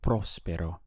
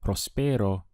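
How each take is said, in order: First: The stress falls on the first syllable. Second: The stress falls on a later syllable. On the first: The speaker calls it right. "It has to be próspero" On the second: The speaker calls it wrong. "you may not be understood"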